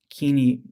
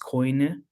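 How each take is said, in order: First: It is said without the Erasmian pronunciation. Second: It is said with the Erasmian pronunciation.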